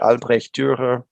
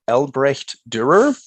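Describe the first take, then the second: First: The name is said with a German pronunciation. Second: The name is said with an American pronunciation. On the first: "German would be closer to" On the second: "That's the American pronunciation"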